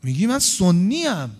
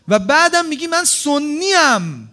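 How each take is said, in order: First: Said in the usual way. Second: Loud, slow and stressed, pressing each word; indignant emphasis. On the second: Acted. Preacher challenging a listener who claims to be Sunni, loud and slow. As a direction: throw the claim back at them, slowly.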